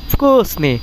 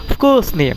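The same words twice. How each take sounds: The two takes are said the same way.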